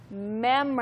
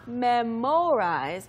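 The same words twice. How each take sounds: First: The second syllable sounds like a reduced 'mur'. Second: The second syllable sounds like 'mo' in memo. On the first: The speaker calls it right. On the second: The speaker calls it wrong.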